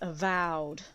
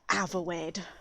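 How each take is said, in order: First: It is said with a 'vowed' ending, like 'avowed'. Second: It is said with an 'er' sound, like 'averwed'. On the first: The speaker calls it right. "It's avowed" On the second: The speaker calls it wrong. "he has plagued my brain with Averwed"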